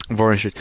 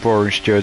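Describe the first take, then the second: First: Said in the usual way. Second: Biting an apple. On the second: Real, not acted. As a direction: mouth full of apple. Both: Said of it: "sorry, I'm eating an apple".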